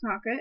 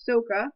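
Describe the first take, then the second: First: The name is said as the show says it. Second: The name is said as the movie says it. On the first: "in the show is pronounced Sokka" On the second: "in the movie it's pronounced Soka"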